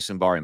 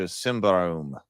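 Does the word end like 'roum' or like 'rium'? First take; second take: rium; roum. First: The word ends with a 'rium' sound. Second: The word ends with a 'roum' sound. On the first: The speaker calls it wrong. "I used to say Symbarium, but I don't think that's the pronunciation" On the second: The speaker calls it right. "I think that's how you pronounce it"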